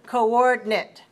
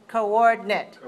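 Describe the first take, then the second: No difference in how they are said.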